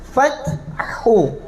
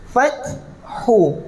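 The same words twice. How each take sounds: The two takes are said the same way.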